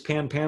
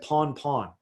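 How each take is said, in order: First: The vowels sound like the a in 'pan'. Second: The vowels sound like the aw in 'pawn'.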